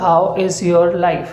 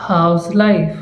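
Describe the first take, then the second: First: "How is your life?" slowly with every word kept; written full form. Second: "How's life?" run together as one phrase; short spoken form. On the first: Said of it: "ये लिखा तो जाएगा". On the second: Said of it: "ऐसे बोलेंगे हम इसे short में". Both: Shown as a demonstration.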